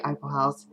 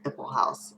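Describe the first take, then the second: First: Eiffel House starting like "eye"; own pronunciation. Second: Eiffel House with a short first vowel, not "eye"; supposed pronunciation. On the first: Vlogger saying the name her usual way, EYE-pull house. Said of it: "I say Eiffel House". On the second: Vlogger giving the supposedly correct way, short-vowel first syllable. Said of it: "I think it is supposed to be". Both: Shown as a demonstration.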